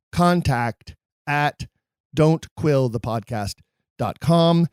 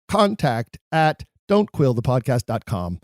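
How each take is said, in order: First: Email address in slow, separated chunks; slow repeat. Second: Said in the usual way. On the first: Real, not acted. Host repeats the email for listeners, slow and deliberate. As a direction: repeat it slowly, pausing between parts.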